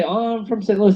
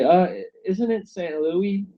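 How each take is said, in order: First: Said in the usual way. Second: Louis said as Louie, no final s, slowly; New Zealanders' correction. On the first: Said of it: "I say". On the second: Retold or imitated. New Zealanders correcting the traveller, slow Louie pronunciation. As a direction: drop the s, Saint Louie. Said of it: "They say".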